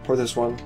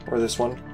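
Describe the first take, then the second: No difference in how they are said.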